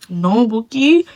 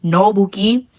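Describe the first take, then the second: First: "No, Bookie" pressed harder, rising and set apart; emphatic correction. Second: Said in the usual way. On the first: Shown as a demonstration. Vlogger repeats no Bookie to her viewers, firmer and pointed. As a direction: lean into "No, Bookie" to correct them firmly.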